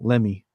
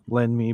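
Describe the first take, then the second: First: The two words blend into one word. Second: The two words are said as separate words. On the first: "but put together it's all Lemmy"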